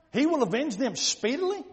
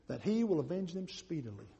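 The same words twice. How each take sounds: First: Rising, disbelieving echo of the promise; incredulous question. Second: Low, soft, solemn promise; hushed verse reading. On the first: Acted. Worshipper doubting God will avenge speedily, incredulous. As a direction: question it, voice climbing on the last word. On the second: A narrator's reading. Preacher reading Jesus' promise to the congregation, low and soft. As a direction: read it quietly, falling at the end. Verse read, then questioned.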